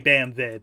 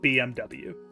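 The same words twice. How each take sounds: First: The last letter is said as German 'vay'. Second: The last letter is said as English 'double-u'. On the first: The speaker calls it right. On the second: The speaker calls it wrong.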